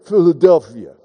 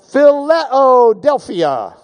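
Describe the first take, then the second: First: Low, slurred boxer's "Philadelphia"; Rocky. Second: Philadelphia drawn out slowly as "fi-LEH-oh-DEL-fia"; Phileo-delphia. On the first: Acted. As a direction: do a movie-boxer impression, pitched down. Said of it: "Or as Rocky pronounces it". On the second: Shown as a demonstration. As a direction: stretch Philadelphia to show phileo inside it, "fileo-delphia". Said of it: "Phileo ... it belongs in a city".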